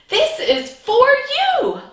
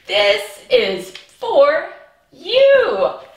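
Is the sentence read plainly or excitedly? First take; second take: excitedly; plainly. First: It is read in an excited way. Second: It is read in a plain, calm way.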